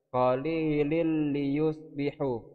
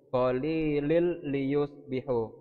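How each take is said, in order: Both takes have the same delivery.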